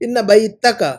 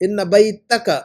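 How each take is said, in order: No difference in how they are said.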